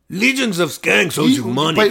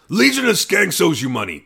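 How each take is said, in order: First: It is said in an exaggerated Puerto Rican accent. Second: It is said in a minimal, toned-down wrestling voice. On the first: The speaker calls it wrong. "I'm going to make it more Puerto Rican than this one" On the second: The speaker calls it right. "just do his Lewis wrestling voice"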